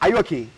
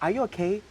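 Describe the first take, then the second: First: The question sounds shady and disrespectful. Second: The question sounds sincere and caring. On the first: The asker is challenging the listener, not checking on them. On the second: The asker genuinely wants to know if the listener is fine.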